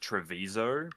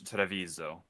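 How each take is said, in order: First: The name is said with an English pronunciation. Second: The name is said with an Italian pronunciation. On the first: "in English pronunciation, it's just Treviso" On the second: "if it's Italian, it's Treviso"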